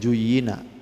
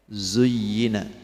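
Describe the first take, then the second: First: The word begins with a j sound. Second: The word begins with a buzzing z sound. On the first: The speaker calls it wrong. "Jangan dibaca juyina" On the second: The speaker calls it right. "Zuyyina pakai z"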